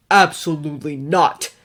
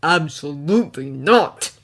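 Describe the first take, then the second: First: Louder, hard flat refusal; spat refusal. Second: Louder refusal ground out through teeth; through clenched teeth. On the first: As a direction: spit the refusal. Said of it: "Bruce spat". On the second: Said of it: "teeth clenched". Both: A narrator's reading.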